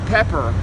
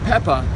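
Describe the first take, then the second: First: It is said in an American accent. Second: It is said in a British accent. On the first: "U S A is" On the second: "U K is"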